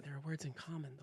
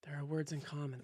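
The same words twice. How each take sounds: First: Softer again, hushed echo; soft repeat. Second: Very soft, almost breathed echo; soft repeat. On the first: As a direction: echo the hint even more hushed. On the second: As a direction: repeat it quietly as a teasing hint. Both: Shown as a demonstration. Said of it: "there are some words in common".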